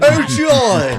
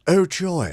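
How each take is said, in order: First: It is said with enthusiastic excitement. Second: It is said in a flat, muted way.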